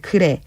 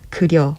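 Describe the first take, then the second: First: It is said in plain standard Korean. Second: It is said slowly in a rough regional dialect. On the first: "표준어로 하면" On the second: "조금 느리고 투박한 사투리로"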